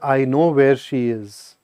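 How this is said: It sounds sad and heavy. Something tragic may have happened. "this is sad"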